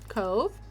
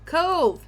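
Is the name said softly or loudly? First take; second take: softly; loudly. First: The name is said softly. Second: The name is said loudly.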